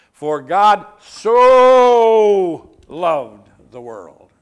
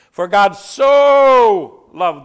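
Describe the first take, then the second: First: "so" hugely drawn out, much louder; stretched "so". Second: "so" loud, higher and slowed; shouted. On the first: Preacher demonstrating the stretched word so. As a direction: shout and stretch "so" long. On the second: Preacher booming John three sixteen. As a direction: proclaim "For God so loved the world" at full voice. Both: Shown as a demonstration. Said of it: "I kind of stretched the word so".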